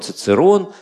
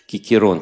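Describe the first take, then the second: First: The name begins with a ts sound. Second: The name begins with a k sound. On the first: "как говорить латинский «кикерон» или «цицерон»" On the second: "как говорить латинский «кикерон» или «цицерон»"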